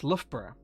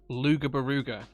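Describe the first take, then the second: First: The name is said in its short local form. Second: The name is read out letter by letter. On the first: The speaker calls it right. "when it's actually pronounced Loughborough" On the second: The speaker calls it wrong. "he pronounced it Luga Baruga"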